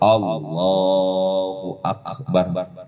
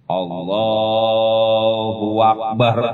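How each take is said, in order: First: No w sound is inserted before Akbar. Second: A w sound is inserted before Akbar. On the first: The speaker calls it right. "Udah pokoknya Allahu Akbar" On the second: The speaker calls it wrong. "Kalau ada huwa, Allahu Akbar, nggak boleh"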